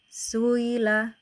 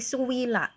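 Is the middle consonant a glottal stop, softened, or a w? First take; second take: softened; w. First: The glottal stop is softened into a smooth glide. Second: A clear w sound replaces the glottal stop. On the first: The hamzah is eased between hamzah and a vowel. "pakai tashil gitu" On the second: The hamzah is replaced by another letter. "maka diibdal tadi ya menjadi suwila"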